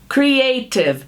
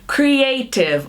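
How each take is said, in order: No difference in how they are said.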